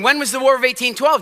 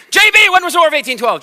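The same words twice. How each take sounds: First: Said in the usual way. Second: Loud, high, fast teacher's demand; startling call-out. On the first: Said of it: "They're going". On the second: Acted. Teacher calling on an inattentive pupil, startling shout. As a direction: pounce on the pupil by name, loudly. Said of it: "is she maybe gonna get startled?".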